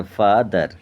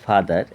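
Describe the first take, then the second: First: ফাদার broken into ফা, দার; split in two syllables. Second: Said in the usual way. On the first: Shown as a demonstration. Teacher showing pupils two syllables, ফাদার split as ফা-দার. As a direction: say ফাদার as two separate beats. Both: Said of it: "দুবার ভাঙা হচ্ছে".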